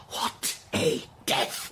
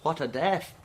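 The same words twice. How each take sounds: First: Voiceless whisper, very slow; hushed. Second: Said in the usual way. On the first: Acted. Invalid dwelling on the dead wife's end, whispered slowly. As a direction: drag out the words in awe.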